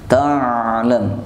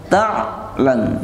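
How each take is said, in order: First: The ain sound flows on without a break. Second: The ain sound is cut off abruptly. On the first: The speaker calls it right. "suara bersambung, tidak terputus" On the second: The speaker calls it wrong. "jangan dibaca ta'lam ya"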